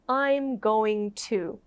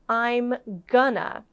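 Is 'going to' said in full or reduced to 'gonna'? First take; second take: full; reduced. First: Going to is said fully as two separate words. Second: Going to is blended into the reduced form gonna. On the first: "instead of" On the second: "you often hear gonna"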